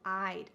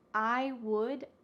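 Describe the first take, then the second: First: Would is shortened and joined onto I. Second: Would is said as a separate full word. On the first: "becomes I'd" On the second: "The word would"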